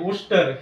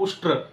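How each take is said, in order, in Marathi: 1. हा शब्द हळू बोलला जातो, स्वर पूर्ण उच्चारले जातात. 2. हा शब्द पटकन बोलला जातो, आवाज एकत्र होतात.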